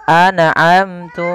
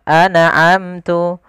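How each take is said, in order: The two takes are said the same way.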